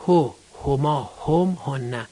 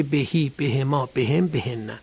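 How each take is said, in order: First: "هو، هما، هم، هنه" with an u vowel after each h; damma pronouns. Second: "بهی، بهما، بهم، بهنه" with i replacing u after the h; kasra pronouns. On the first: Teacher reciting the pronouns for students, "هو، هما، هم، هنه" with u vowels. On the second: Teacher showing the vowel change after bi, "بهی، بهما، بهم، بهنه" with i sounds. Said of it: "به بذارید قبلشون کسره". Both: Shown as a demonstration.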